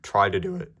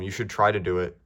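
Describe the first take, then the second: First: Voice crack. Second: Said in the usual way. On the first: Real, not acted. Urging viewers to try it, with an accidental voice crack. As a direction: voice cracking upward on "do it". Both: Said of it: "that was a terrible voice crack".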